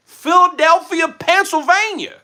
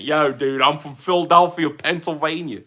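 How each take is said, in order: First: Put-on high, loud, drawn-out wrong accent for Philadelphia; hammed-up mistaken hometown accent. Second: Hammed-up Delco local accent; fake Delco accent. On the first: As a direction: put on an exaggerated accent, much higher and slower than usual. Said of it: "That's the wrong accent". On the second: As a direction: do a mock Philadelphia-area Delco accent. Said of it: "doing the fake Delco accent".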